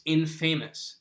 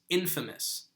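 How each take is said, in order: First: "infamous" said like "in-FAY-mus"; "infamous" mispronounced to rhyme with "famous"; wrong pronunciation. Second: "infamous" said as "IN-fuh-mus"; "infamous" with punched IN and short, weak middle vowel; correct pronunciation. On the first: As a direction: say "infamous" as in plus famous, with a long A. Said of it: "it's not pronounced infamous". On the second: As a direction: stress the first syllable of "infamous", reduce the middle to "fuh". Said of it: "it's not pronounced infamous, it's infamous". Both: Shown as a demonstration.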